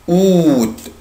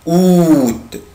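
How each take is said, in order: No difference in how they are said.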